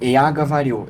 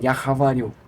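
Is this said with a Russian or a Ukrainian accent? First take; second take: Russian; Ukrainian. First: It is said with a standard Russian accent. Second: It is said with a Ukrainian accent. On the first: "eu falo em russo" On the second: "A ucraniana fala"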